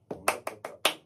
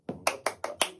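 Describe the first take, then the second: First: Louder half-voiced "Un, dos, tres, cuatro" with a push on "cuatro"; counting the beat. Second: Breathy counted "Un, dos, tres, cuatro" under the claps; counting the beat. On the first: Teacher repeating the count for students, louder half-voiced count. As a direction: count it out again over the claps, driving to "cuatro". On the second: Teacher counting for students over clapping, half-voiced count. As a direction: count the compás half-voiced, in time with the palmas. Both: Shown as a demonstration. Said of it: "¿Veis el acento de la última nota?".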